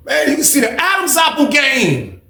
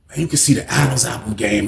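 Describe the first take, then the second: First: Very high, slow and drawn out; incredulous squeal. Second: Said in the usual way. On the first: Real, not acted. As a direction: exclaim in disbelief, voice way up high. Incredulous first take, then repeated low.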